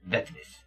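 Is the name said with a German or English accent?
German. It is said with a German-style V sound.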